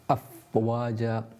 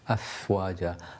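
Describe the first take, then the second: First: The f is said with no audible air. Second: The f is said with a burst of air. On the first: The speaker calls it wrong. "that's incorrect because there's no air" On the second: The speaker calls it right. "you had a burst of air with that"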